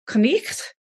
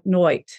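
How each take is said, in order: First: The word has a throaty ch sound. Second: The word has an oi vowel sound. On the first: This is the older form of the word. "in Old English would have been more like knicht, because it would have had that German blech sound" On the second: This is the form from a later period. "by the time of Shakespeare, been pronounced more like noit"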